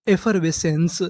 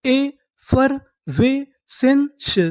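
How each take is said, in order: First: Said in the usual way. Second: effervescence stretched out slowly, rising high; very slow model word. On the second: Shown as a demonstration. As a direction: spell out effervescence slowly for the class. (Effervescence बहुत धीरे, ऊँचे सुर में) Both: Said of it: "तो हमारी पूरी meaning क्या बनी?".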